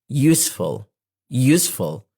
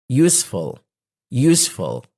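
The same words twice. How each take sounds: The two takes are said the same way.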